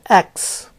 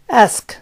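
First: The word ends with a 'ks' sound. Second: The word ends with an 'sk' sound. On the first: The speaker calls it wrong. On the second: The speaker calls it right.

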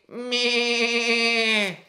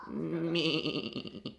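First: The bleat is said loudly. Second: The bleat is said very quietly.

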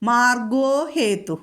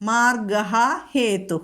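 First: The first word ends in an o vowel. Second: The first word ends in a breathy h sound.

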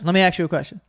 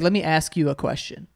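First: Ask is said quickly, like aks. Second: Ask is said slowly and carefully, like ask. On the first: "I say axe" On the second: "I don't say"

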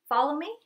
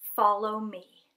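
First: It is said hesitantly and passively. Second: It is said calmly and assertively.

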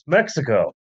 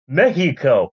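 First: It is said with an English pronunciation. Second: It is said with a Spanish pronunciation. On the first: "It's Mexico" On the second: "Why are you pronouncing it like that?"

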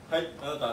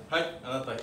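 The two takes are said the same way.

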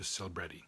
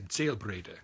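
First: The name is pronounced the American English way. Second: The name is pronounced the German way. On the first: "in America it's been anglicized to Selbrede" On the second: "in Germany you would say Selbrede"

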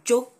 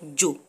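First: The word is said at a raised pitch. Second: The word is said at a lower pitch. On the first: "so you raise your voice a little bit" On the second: "If you say jo, it means fire"

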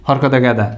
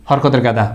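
No difference in how they are said.

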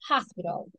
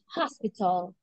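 First: It is said in an American accent. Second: It is said in a British accent. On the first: "American hospital" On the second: "And British hospital"

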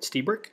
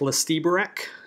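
First: The name starts with an S sound. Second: The name starts with an audible L sound. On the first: The speaker calls it right. "He pronounces it Stiebrick" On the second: The speaker calls it wrong. "Looks like Lestiebrick. It's not"

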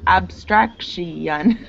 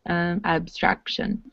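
First: The ending is split into two syllables. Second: The ending is one syllable, like shun. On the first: The speaker calls it wrong. "if you tried to pronounce it with four" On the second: The speaker calls it right. "it sounds like shun at the end"

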